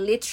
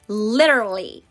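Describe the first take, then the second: First: It is said with a British accent. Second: It is said with an American accent.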